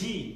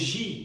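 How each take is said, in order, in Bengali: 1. এটি কঠিন 'j' ধ্বনি দিয়ে শুরু হয়। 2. এটি নরম, একটু ভারী 'zh' ধ্বনি দিয়ে শুরু হয়। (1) "এই জি কিন্তু ফরাসি ভাষায় নেই" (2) "একটু ভারী করে উচ্চারণ করতে হবে"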